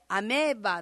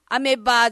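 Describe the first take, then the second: First: The vowel after 'ame' is long. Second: The vowel after 'ame' is short. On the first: The speaker calls it right. "アメーバーなんですね" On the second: The speaker calls it wrong. "アメバーじゃなくて"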